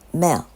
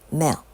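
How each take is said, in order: The two takes are said the same way.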